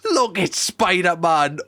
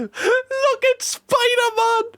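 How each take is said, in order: First: Said in the usual way. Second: Put-on high, slow kid's squeal; high squeaky child voice; mimicking the kid. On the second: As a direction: echo the child's excited shout, high and drawn out. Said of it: "Did you hear the kid there?".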